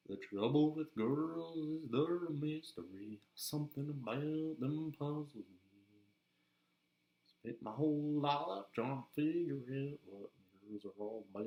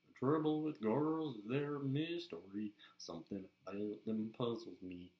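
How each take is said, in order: First: Slow, sung Southern country drawl; Southern accent. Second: Southern country singer's drawl, sung; Southern accent. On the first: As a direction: croon it slowly, higher, with Southern twang. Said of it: "go into voice really easily". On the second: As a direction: croon it with a Southern twang. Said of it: "is a good Southern accent". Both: Shown as a demonstration.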